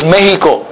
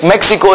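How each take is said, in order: First: The x is said as an h sound. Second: The x is said as a ks sound. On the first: This is the Spanish way of saying it. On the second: This is the English way of saying it.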